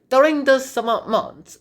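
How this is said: It is said in a put-on British accent.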